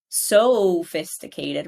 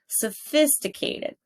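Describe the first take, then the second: First: A different syllable is stretched, not 'phis'. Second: The syllable 'phis' is held long and loud. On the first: The speaker calls it wrong. "I don't say sophisticated" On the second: The speaker calls it right. "I elongate this one"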